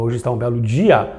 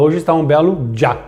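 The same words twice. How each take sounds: First: "dia" split as DI-a; dia in two syllables. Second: "dia" squashed into "djá"; dia as one syllable. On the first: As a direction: say "dia" with a stressed I, then a separate A. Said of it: "Eu falo". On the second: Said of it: "Eu não acordo e falo". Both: Shown as a demonstration.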